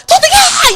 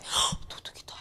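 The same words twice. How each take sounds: First: 도둑이야 shouted much higher and louder. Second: Breathless whisper of 도둑이다; 헉 gasped, 도둑이다 whispered unvoiced. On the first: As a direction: yell 도둑이야 high and loud. Shouting at thief. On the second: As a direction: gasp then whisper it as if afraid. Timid reaction to thief. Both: Shown as a demonstration.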